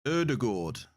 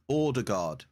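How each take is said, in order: First: Ødegaard with the aa said like or. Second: Ordegaard, opening with or; or at the start. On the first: Copying the chat's correction, aa said like or. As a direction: rounder aa at the end. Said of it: "the A is not pronounced like that". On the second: Drilling the chat's hint, Ordegaard starting with or. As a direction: stretch the first syllable to or. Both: Shown as a demonstration.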